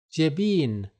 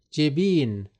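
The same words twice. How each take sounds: The two takes are said the same way.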